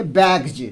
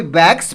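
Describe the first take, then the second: First: बैग्स ending in a voiced "j"; final j sound. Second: बैग्स ending in a plain "s"; wrong s ending. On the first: Teacher shows how to read बैग्स, final s turned to j. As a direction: say बैग्स as "baig-j", not "baiks". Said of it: "यहाँ पर हम लोग पढ़ेंगे". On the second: Teacher shows the wrong reading, बैग्स with an s ending. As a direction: say बैग्स as "baiks", with no j sound. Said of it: "तो वह गलत उच्चारण हुआ". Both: Shown as a demonstration.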